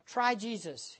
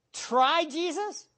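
First: Softer imitation of a sweet "Try Jesus" sales pitch; mock soft sell. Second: "Try Jesus" slow and higher with a rising disbelief; incredulous repeat. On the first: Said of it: "They say things like this". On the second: Real, not acted. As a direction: echo "Try Jesus" in disgust.

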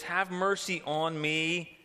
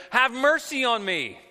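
First: Said in the usual way. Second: Loud, high pleading cry. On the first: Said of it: "The basis for her appeal is she says". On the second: Retold or imitated. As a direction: call it out to him, begging for mercy. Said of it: "She cries out".

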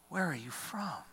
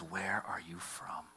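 First: Higher, incredulous demand; a hint of the proud governor pressing; lightly voiced Pilate. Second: Slow, breathy whisper; whispered question. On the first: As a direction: Pilate indignant that Jesus stays silent, higher. Pilate questions Jesus, pitched up. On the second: Retold or imitated. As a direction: ask it low and slow, almost to yourself. Pilate questions Jesus, whispered.

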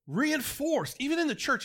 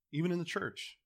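First: Much higher emphatic repeat. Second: Said in the usual way. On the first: Real, not acted. Preacher repeats with more force.

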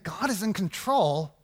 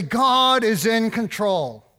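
First: Skeptical echo. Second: Mock pious. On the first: Retold or imitated. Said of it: "And I think". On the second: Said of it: "churchy language like".

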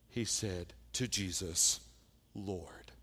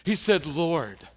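First: "Lord" murmured under the breath; quiet Lord. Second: "Lord" punched out loud; "Lord" proclaimed with force; emphatic Lord. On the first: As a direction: Lord said low and soft, trailing off. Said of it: "you missed it when Bill read it". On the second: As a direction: hit "Lord" hard and loud. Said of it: "Go back and look". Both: Shown as a demonstration.

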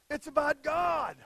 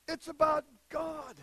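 No difference in how they are said.

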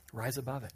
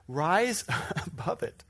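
First: Said in the usual way. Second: Laughing, louder. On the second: Shown as a demonstration. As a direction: rise above it with a laugh. Laughing emphatic repeat.

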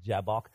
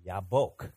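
First: Jabbok as English says it, JAB-ok; the plain English Jabbok. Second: Yabok with a Y, yah-BOKE, Hebrew style; low and deliberate Hebrew Yabok. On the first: Pastor showing the congregation the English Jabbok, plainly. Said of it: "that's how we say it". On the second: Pastor contrasting the Hebrew with the English, demonstrating. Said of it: "But in Hebrew, here's how they say it". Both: Shown as a demonstration.

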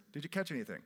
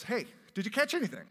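First: Said in the usual way. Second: Calling out. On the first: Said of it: "Jesus is on the shore". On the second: Acted. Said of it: "he calls out and he goes".

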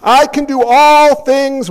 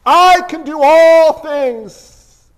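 First: "I can do all things" drawn out slowly, louder; slow, emphatic reading. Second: "I can do all things" very slow, higher and louder; slow, emphatic. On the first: Acted. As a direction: read it slow and weighty, stressing "all". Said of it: "let me keep reading". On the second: Shown as a demonstration. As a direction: proclaim each word slowly and separately. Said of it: "Do you see the difference there?".

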